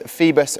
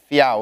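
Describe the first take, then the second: First: It sounds like 'Phoebus', with a b sound. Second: It sounds like 'fee-ow-us', with no b sound. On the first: The speaker calls it wrong. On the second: The speaker calls it right.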